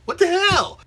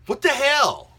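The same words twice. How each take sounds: First: Even higher, louder What the hell, near a shriek; exasperated. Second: High, loud What the hell; disbelieving outburst, voice jumping up; exasperated. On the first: Vlogger baffled by fans hating unseen films, shrill outburst. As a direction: repeat it with more outrage. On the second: Vlogger baffled by fans hating unseen films, exasperated. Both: Real, not acted.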